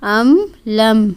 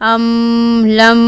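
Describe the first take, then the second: First: The final m is held for a moderate time. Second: The final m is held for too long. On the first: The speaker calls it right. "हम कह रहे हैं अमलम" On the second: The speaker calls it wrong. "ना ही ज़्यादा जारी रखेंगे, अमलम ऐसा नहीं है"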